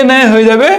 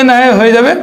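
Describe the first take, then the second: The two takes are said the same way.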